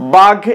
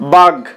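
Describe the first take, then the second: The two takes are said the same way.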